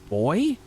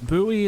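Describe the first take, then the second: First: It is said the British way. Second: It is said the American way. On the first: "I guess you guys pronounce them boy" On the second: "it's buoy in the U S"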